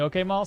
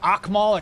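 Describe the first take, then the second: First: The name is said plainly, from the front. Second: The name is said from the back of the throat. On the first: This is the way everyone says the name now. "everybody calls me okay Maul" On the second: This is the original intended form of the name. "the original way was like Akmal"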